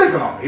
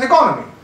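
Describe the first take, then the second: First: The mistaken economy with the beat on NO; wrong stress on economy. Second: Economy said as e-CO-no-my, stress on the second syllable; the right economy with the beat on CO; correct stress on economy. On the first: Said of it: "It's not economy". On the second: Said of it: "it is economy". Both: Shown as a demonstration.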